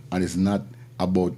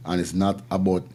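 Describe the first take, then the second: No difference in how they are said.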